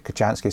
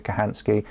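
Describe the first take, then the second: First: "Kochanski" said with a "ch" as in "chance". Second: "Kahansky" said with a breathed "h" in place of "ch". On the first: Host showing how some people pronounce the surname, "Kochanski" with a "ch" sound. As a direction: say "Kochanski" as kuh-CHAN-skee. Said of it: "some people pronounce it Kochanski". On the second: Host showing the other way people pronounce the surname, "Kahansky" with an "h" sound. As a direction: say "Kahansky" as kuh-HAN-skee. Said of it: "some people pronounce it Kahansky". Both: Shown as a demonstration.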